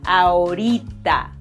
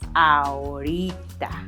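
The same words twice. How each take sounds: First: It is dragged out, less deep. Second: It is said in a very deep voice.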